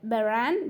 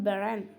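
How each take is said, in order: First: "Baran" with a full A N ending; "Baran" with its last vowel unweakened. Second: "Baran" with the ending weakened to E N; "Baran" said as "beren". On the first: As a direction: sound the final syllable of "Baran" clearly as -an. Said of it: "A N of Baran was weakened to E N". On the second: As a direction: let the last syllable of "Baran" reduce to -en. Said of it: "was weakened to E N". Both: Shown as a demonstration.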